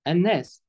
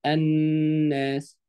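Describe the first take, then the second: First: Said in the usual way. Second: الناس with the doubled ن held long as a hum; ghunna on النون. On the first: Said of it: "ما ينفعش حد يقول إيه". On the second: Shown as a demonstration. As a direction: draw out the nasal ن in الناس, very slowly. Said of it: "بنعمل فيها غنة".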